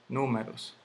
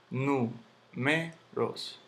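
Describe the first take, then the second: First: Said in the usual way. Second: Números very slowly as nú-me-ros; syllable by syllable. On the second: Shown as a demonstration. Teacher sounding out the word for students, very slow separate syllables. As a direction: pull números apart with pauses. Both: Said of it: "aquí lleva su tilde".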